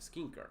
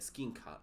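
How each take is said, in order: First: The final r sound is pronounced. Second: The final r sound is dropped. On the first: "as we would pronounce" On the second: "because he's from uh, England"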